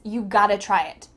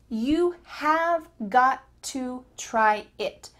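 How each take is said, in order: First: The middle words shrink into one short word. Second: Every word is said fully and separately. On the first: "have got to is reduced to gotta" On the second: "the full sentence could be"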